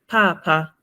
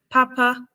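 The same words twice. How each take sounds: First: The first syllable is high, the second low. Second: Both syllables are said on a high tone. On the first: It means dad. "which is a high and a low tone" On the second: It means good. "that has two high tones"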